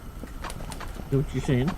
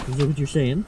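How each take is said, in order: First: Slow breathy whisper to the cat. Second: Said in the usual way. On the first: Shown as a demonstration. Asking the cat again in a slow whisper. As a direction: whisper it slowly. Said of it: "repeated softly". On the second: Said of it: "repeated as whisper".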